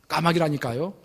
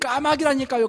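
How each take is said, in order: First: It sounds slightly curt and short. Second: It is shouted loudly and angrily. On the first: The speaker is a little impatient. "약간 퉁명스럽게" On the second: The speaker has lost patience. "화가 나서 큰 소리로 외쳤습니다"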